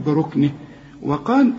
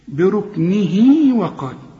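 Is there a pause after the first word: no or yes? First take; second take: yes; no. First: The first word ends short, then a pause. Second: The two words run together with a lengthened vowel. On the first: The reciter stops after the first word. "إذا وقفت" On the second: The reciter joins the words without stopping. "عند الوصل"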